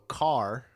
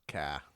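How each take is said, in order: First: The final R sound is clearly pronounced. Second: The final R is dropped, ending in ah. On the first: "anything that ends in R" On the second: "replace it with A H"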